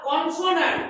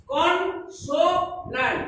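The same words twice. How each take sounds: First: Said in the usual way. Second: "consonant" very slowly as কন, সো, ন্যান্ট; three syllables apart. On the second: Shown as a demonstration. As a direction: give "consonant" three separate slow beats. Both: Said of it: "এর তিনটি syllable আছে".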